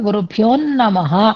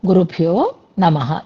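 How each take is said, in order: First: The n of namah is doubled and held. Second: The n of namah is short and single. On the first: The speaker calls it wrong. "అని మాత్రం అనకూడదు" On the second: The speaker calls it right. "నా కింద నా ఒత్తు ఉండకూడదు. గురుభ్యో నమః తేల్చేయాలి"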